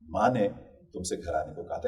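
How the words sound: The stress falls on the word माँ. It was mother who gave the instruction. "इसमें माँ पर अगर हम दबाव डालते हैं तो इसका कुछ अलग अर्थ निकलता है।"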